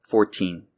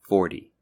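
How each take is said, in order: First: "Fourteen" with a crisp, true T; "Fourteen", American, T fully sounded. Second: "Forty" with the T almost a D; "Forty", American, said like "fordy". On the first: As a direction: pronounce the T in "Fourteen" as a clear T. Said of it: "numbers in the teens are pronounced with a T sound". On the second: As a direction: soften the T in "Forty" toward a D. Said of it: "pronounced with almost a D sound". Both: Shown as a demonstration.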